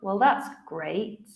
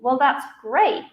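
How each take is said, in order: First: It sounds sarcastic. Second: It sounds enthusiastic.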